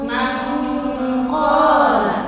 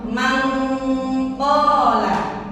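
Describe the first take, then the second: Both takes have the same delivery.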